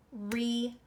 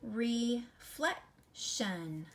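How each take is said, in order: First: Said in the usual way. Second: "Reflection" drawn out very slowly; slow stretched word. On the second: Shown as a demonstration. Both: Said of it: "This is".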